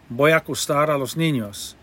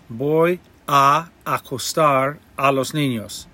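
First: The words run together smoothly and naturally. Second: The words are said separately and carefully.

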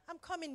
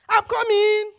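First: The words are said in a soft, gentle tone. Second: The words are said in a sharp, irritated tone. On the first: The wife responds lovingly to her husband. "Your tone is so important" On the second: The wife responds with annoyance to her husband. "there are two different words"

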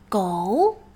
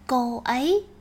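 First: It is one syllable with a questioning tone. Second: It is two syllables, cô then ấy.

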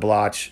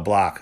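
First: The name ends with a ch sound. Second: The name ends with a hard k sound. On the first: The speaker calls it wrong. "mispronounce their surname as Blotch" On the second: The speaker calls it right. "so that nobody would miss the solid hard K sound"

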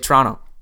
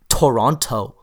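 First: The second t is dropped. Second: The second t is clearly pronounced. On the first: "You say Toronto" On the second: "I guarantee you don't say Toronto"

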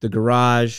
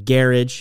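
First: Garage is said in the speaker's everyday way. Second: Garage is said the way Formula One people say it.

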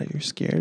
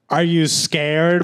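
First: It is said in a worried, sympathetic tone. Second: It is said in a mocking, taunting tone. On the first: The asker pretends to care about the listener's feelings. "Liberals are like, oh my God" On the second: The asker is making fun of the listener's fear. "And conservatives are like"

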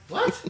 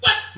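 First: It sounds incredulous, full of disbelief. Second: It sounds flat, without disbelief.

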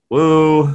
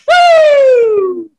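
First: It is flat and annoyed. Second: It is loud and excited.

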